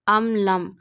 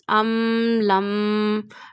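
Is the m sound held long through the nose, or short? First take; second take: short; long. First: The m is short, without a held nasal sound. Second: The m is held long through the nose. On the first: The speaker calls it right. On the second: The speaker calls it wrong.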